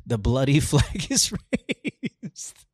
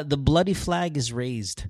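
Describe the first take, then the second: First: Drawn out with a laugh in the middle; slow, laughing through it. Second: Said in the usual way. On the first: Acted. Reading the bloody anthem lyric to a friend, slow and laughing. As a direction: savour the line while cracking up.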